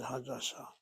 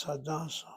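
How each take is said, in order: First: "Hadassah" with the stress on the last syllable, sah; final-syllable stress. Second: "Hadassah" with the stress on the middle syllable, das. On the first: Teacher asking which reading is right, final-syllable stress on "Hadassah". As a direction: land on the end of "Hadassah". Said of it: "Notice how I said Hadassah. Or is it Hadassah?". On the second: Teacher offering students another reading, middle-syllable stress on "Hadassah". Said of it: "Maybe it's Hadassah". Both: Shown as a demonstration.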